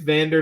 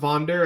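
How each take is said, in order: First: The first vowel sounds like 'a' in 'van'. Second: The first vowel sounds like 'o' in 'von'. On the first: The speaker calls it right. "I think it's Vander" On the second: The speaker calls it wrong. "not Vonder"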